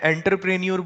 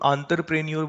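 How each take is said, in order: First: The word begins with an 'en' sound. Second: The word begins with an 'on' sound. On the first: This is the speaker's own way of saying it. "मैं एंटरप्रेन्योर बोलता हूँ" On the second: This is how the other person says it. "तुम आंतरप्रेन्योर बोलते हो"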